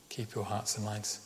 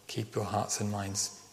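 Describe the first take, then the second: No difference in how they are said.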